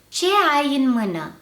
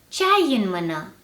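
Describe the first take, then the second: First: The meeting vowels are said separately. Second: The meeting vowels merge into one syllable. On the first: It suits formal speech. "the uncontracted form first" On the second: It suits informal speech. "then the contracted form"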